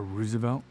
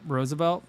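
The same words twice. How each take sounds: First: "Roosevelt" with first syllable like "ruse"; ROOZ pronunciation. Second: "Roosevelt" with first syllable like "rose"; ROSE pronunciation. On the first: Vlogger offering the other reading, "Roosevelt" said as ROO-zuh-velt. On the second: Vlogger giving street directions, "Roosevelt" said as ROH-zuh-velt. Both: Shown as a demonstration. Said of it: "depending on how you wanna pronounce it".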